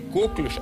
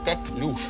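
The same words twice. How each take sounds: First: The stress is on the first syllable. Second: The stress is on the last syllable. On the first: The speaker calls it wrong. "Не коклюш" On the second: The speaker calls it right. "а коклюш. Ударение... французское"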